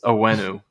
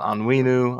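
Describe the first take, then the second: First: The first N is silent. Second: The first N is pronounced. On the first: The speaker calls it right. "It's Owenu. The N is silent" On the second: The speaker calls it wrong. "It's not Onwenu"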